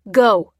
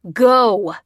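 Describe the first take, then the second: First: Short, loud command; urging. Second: Longer, full-force angry shout; roared. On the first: Bearded man urging the old man out, loud. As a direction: urge him out with force. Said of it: "he urged the old man". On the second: Aggressor shoving the old man out, roaring. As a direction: roar the order out. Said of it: "roared the aggressor". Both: A narrator's reading.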